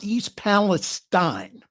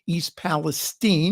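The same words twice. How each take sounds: First: The last syllable of Palestine lacks a long E. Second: The last syllable of Palestine has a long E. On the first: The speaker calls it wrong. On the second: The speaker calls it right. "long E"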